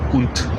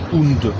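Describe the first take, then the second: First: The word ends with a t sound. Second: The word ends with a d sound. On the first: The speaker calls it right. "Dico unt. È di fatto una T" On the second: The speaker calls it wrong. "Io non dico und"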